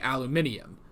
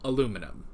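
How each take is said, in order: First: It is said the British way, five syllables. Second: It is said the American way, four syllables. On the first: "in the British accent, it does sound better to say aluminium" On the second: "in the American accent, it says it sounds better to say aluminum"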